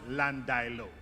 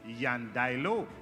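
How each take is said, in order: First: It begins with a plain L sound. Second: It begins with a Y sound. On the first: It is the common local usage. The speaker calls it wrong. "we in Jamaica call Landilo... represents an error of pronunciation" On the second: It follows a Spanish origin. The speaker calls it right. "If the origin of that word is Spanish, then the correct pronunciation is Yandailo"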